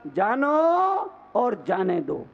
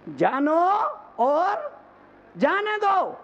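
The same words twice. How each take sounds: First: Said in the usual way. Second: Climbing high, with pauses between the parts; rousing motto. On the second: Real, not acted. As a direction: break it up and lift it high. Motto repeated forcefully. (रुक-रुककर, सुर चढ़ाते हुए नारा)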